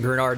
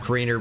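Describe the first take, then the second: First: The name ends with a 'nard' sound. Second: The name ends with a 'ner' sound. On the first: The speaker calls it right. "I'm pronouncing it Grenard" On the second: The speaker calls it wrong. "not Greener"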